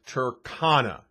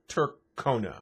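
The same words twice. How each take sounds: First: The middle syllable sounds like 'con' in 'Con Air'. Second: The middle syllable does not sound like 'con' in 'Con Air'. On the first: This is the name as the creator intends it. The speaker calls it right. "explaining why it's Tercona" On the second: This is how some people mistakenly say the name. The speaker calls it wrong. "not Tercona"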